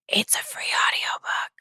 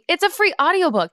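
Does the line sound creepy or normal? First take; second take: creepy; normal. First: It is said in a creepy manner. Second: It is said in a normal, less creepy manner.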